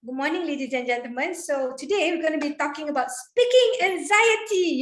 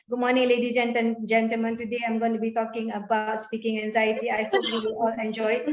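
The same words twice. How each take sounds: First: Lively opening with the pitch lifting on speaking; varied, engaging intonation demo. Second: Flat droning delivery with no highs or lows; monotone demo of a dull opening; monotonous. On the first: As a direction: give the greeting highs and lows, stress speaking. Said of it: "have a certain tone". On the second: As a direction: read it like a bored robot, quick and even. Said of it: "Yeah, that's monotonous". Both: Shown as a demonstration.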